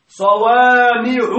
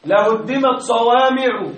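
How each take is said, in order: First: صوامع بصوت أعلى وببطء شديد دون تنوين; اضغط على صوامع وامدها; تأكيد صوامع. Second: Said in the usual way. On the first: Shown as a demonstration. (صوامع بتأكيد وبطء) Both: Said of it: "بدون تنوين".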